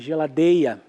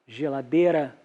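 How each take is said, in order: First: The r sound becomes a glide and disappears. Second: The r sound before the final vowel is kept. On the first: "a semivocalização" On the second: "em vez de geladeira"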